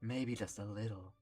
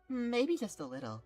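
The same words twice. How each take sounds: First: It is said in a manly voice. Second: It is said in a less manly voice.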